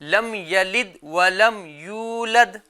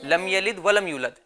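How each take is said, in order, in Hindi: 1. 'yulad' में स्वर लंबा है। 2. 'yulad' में स्वर छोटा है। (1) "तलफ्फुज क्या है?" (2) "इसको जल्दी पढ़ते हैं। ... गलत है।"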